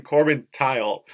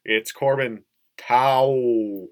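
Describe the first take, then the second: First: "Tile" with a final L sound; wrong name pronunciation. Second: Drawn-out "Tao", rhyming with "cow"; corrected name pronunciation. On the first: Quoting the announcer's mistake on a player's name, saying "Tile". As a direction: say TILE, rhyming with "mile". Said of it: "he kept saying Corbin Tile". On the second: Correcting the announcer on a player's name, hugely drawn-out "Tao". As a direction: stretch TAO very long, with no L at the end. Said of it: "even after we would go". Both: Retold or imitated.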